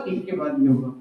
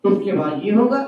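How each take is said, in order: First: इसके बाद ये होगा said again much lower and softer; soft repeat. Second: Said in the usual way. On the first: Shown as a demonstration. Teacher echoing इसके बाद ये होगा to the children, low and soft.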